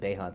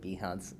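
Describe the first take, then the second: First: The first vowel sounds like 'ay'. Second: The first vowel is not an 'ay' sound. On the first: "I pronounce it Behance" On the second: "you pronounce it Behance"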